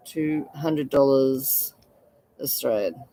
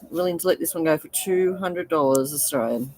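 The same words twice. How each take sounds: First: Slow emphatic repeat. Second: Said in the usual way. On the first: Shown as a demonstration.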